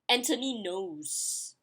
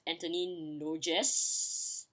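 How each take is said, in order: First: The surname sounds like 'knows', with no g. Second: The surname is said with a hard g sound. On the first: This is how French speakers say it. The speaker calls it right. "it's supposed to be Anthony knows" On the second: This is a spelling-based reading by a non-native speaker. The speaker calls it wrong. "for me, I'll pronounce it as Anthony Noges"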